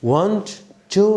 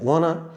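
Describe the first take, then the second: First: Both words are said in full with t sounds. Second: The t sounds drop and the words merge. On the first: "ওয়ান্ট টু না বলে" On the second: "আমরা বলবো ওয়ান বা ওয়ানা বলা যায়"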